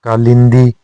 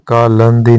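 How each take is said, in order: First: कालिंदी with "lin"; correct form. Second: कालंदी with "lan"; incorrect form. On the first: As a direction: put a short i in कालिंदी. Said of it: "के लिए होता है". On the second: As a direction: put a short a in कालंदी. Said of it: "नहीं होता". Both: Shown as a demonstration.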